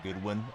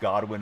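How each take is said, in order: First: The first vowel sounds like in 'good'. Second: The first vowel sounds like in 'god'. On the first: The speaker calls it wrong. "not Goodwin" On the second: The speaker calls it right. "I've been reading it as Godwin"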